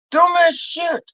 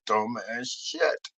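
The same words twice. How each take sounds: First: High-pitched "Dumbass shit"; exasperated repeat. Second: Low, soft "dumbass shit"; muted disparagement. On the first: Comic repeating his verdict on Santi, high exasperation. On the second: Comic mocking what Santi tries, low and dying away. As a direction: let "shit" fade away almost voiceless. First, low take of phrase. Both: Acted.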